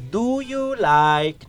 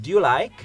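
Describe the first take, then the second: First: Very slow, separated "Do... you... like?", pitched high; unconnected words. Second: "Do you like?" run together as "d'you like"; connected speech. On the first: Teacher showing how children say it, slow separated words. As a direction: pull each word apart in "Do you like?". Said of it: "cuando los niños dicen". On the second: Teacher modelling connected speech for students, words linked together. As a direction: link the words quickly into one, higher pitch. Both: Shown as a demonstration.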